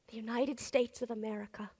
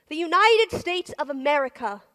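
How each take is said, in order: First: Quiet first take; hushed, reverent. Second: Louder and higher, fall at the end; loud answering take; proud ringing declaration. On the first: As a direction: say the name quietly like a memory. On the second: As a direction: proclaim the name with pride. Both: Acted. The name the soldiers knew.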